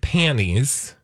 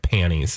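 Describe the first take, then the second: First: The word is pronounced carefully and crisply. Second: The word is pronounced loosely and slurred. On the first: The speaker calls it right. "I have to enunciate" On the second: The speaker calls it wrong. "otherwise it comes out panties and then it just sounds gross"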